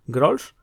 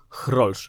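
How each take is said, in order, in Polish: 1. Ta nazwa jest wymawiana w nieholenderski sposób. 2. Ta nazwa jest wymawiana bliżej holenderskiej wymowy. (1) "Otóż nie" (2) "chrolsch jest zdecydowanie bliższe temu, jak wymówiłby to Holender"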